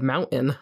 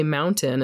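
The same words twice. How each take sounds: First: "mountain" with the T swallowed into a glottal stop; Utah pronunciation. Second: "mountain" with a crisp T sounded in the middle; T pronounced. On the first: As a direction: say "mountain" Utah-style, as MOUN-in. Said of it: "I'm not even good at Utah accents". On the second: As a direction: say "mountain" with a full T. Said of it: "I say mountain instead of mountain". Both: Shown as a demonstration.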